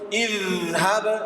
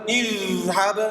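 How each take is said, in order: First: The middle consonant is a continuous flowing sound. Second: The same.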